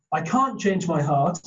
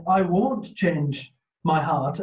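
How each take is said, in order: First: "can't" lightly stressed with a small rise. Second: Slow, with "won't" clearly stressed. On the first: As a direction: lean a little on "can't". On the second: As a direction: drag it out and press on "won't". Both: Shown as a demonstration. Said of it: "is merely for them to say".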